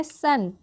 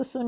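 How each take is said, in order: First: सन said with a short "uh" vowel, like English sun; correct reading of सन. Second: सुन said with an "oo" vowel as the mistake; wrong reading सुन. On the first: Teacher showing learners the S sound, correct reading of सन. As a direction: say सन with "uh", not "oo". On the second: Teacher warning learners off a misreading, wrong "oo" in सुन. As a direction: quote सुन softly with "oo" instead of "uh". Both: Shown as a demonstration. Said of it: "इसको सुन नहीं पढ़ेंगे".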